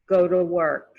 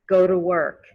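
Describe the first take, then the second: Both takes have the same delivery.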